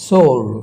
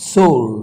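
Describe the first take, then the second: No difference in how they are said.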